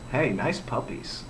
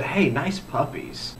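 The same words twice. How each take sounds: First: Very hushed, low, slow mock come-on; half-hearted catcall, dropped much softer and lower; mock catcall to a man. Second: Soft, slow mock come-on; lightly acted catcall, quiet and drawn out. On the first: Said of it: "looked at a man and said". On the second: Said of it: "looked at a woman and said".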